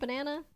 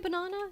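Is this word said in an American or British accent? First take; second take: American; British. First: The word is said in an American accent. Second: The word is said in a British accent. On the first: "instead of" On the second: "don't they say banana"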